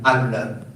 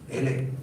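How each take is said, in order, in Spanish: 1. La primera vocal suena como una A abierta. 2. La primera vocal suena como una E. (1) "no digan Allah" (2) "la A se pronunciaba como Imena. La E era extender la A como una E"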